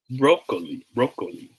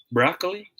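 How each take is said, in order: First: Falling "broccoli" as BROH-kuh-lee; long O in broccoli. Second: High, rising "broccoli" as BRAH-klee; open O in broccoli. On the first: Teacher repeats options for viewers, BROH-kuh-lee broccoli. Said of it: "if it is broccoli". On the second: Teacher repeats options for viewers, BRAH-klee broccoli. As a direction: lift "broccoli" up, open first vowel. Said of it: "how should we pronounce this word". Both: Shown as a demonstration.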